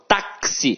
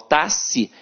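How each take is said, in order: First: The X is sounded as K followed by S. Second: The X is sounded as one single sound. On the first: The speaker calls it right. "o X aqui tem som de K S" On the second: The speaker calls it wrong. "eu não falo táxi"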